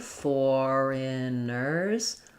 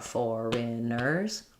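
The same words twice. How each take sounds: First: The word is said slowly, syllable by syllable. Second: The word is said at normal speed. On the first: "Break it down slowly" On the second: "This is pretty short and reduced"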